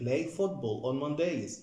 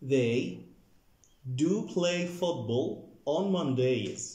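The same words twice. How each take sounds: First: Said in the usual way. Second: "do" said slow and heavy for emphasis; emphatic "do" in "They do play football"; stress on do. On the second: Shown as a demonstration. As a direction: lean on "do" to insist. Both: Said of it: "حطيت ال do هنا للتأكيد".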